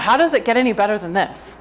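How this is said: It is said in a tense, constricted tone.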